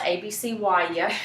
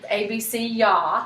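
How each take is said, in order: First: The ending is spelled out as letters Y, A. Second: The ending is said as one syllable, ya. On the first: The speaker calls it wrong. "I pronounce it wrong" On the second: The speaker calls it right. "it's actually"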